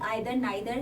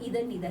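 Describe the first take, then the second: First: The first vowel sounds like 'eye'. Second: The first vowel sounds like 'ee'. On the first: "एक American जो pronunciation है उसकी आइदर नाइदर है" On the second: "जो इसकी British pronunciation है वो ईदर नीदर है"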